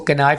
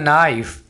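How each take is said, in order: First: The word starts with a k sound. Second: The word starts without a k sound. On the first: The speaker calls it wrong. "इसको कनाइफ नहीं बोलना" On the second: The speaker calls it right. "अब यहाँ पर आपने के को silent रखना है"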